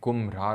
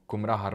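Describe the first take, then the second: First: The middle is said as 'mbhra'. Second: The middle is said as 'mra-ha'. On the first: The speaker calls it right. "लेकिन ये कुम्भरार होता है" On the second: The speaker calls it wrong. "मैं उसको कुमराहार pronounce करता हूँ"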